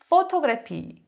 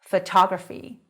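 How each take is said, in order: First: The stress is on the first syllable. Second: The stress is on the second syllable. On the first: The speaker calls it wrong. "일반적으로 학생분들한테 이 발음을 하라고 말씀을 드리면" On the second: The speaker calls it right. "이름절이 아니라 이음절에 와요"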